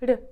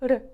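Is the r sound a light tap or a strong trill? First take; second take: light; light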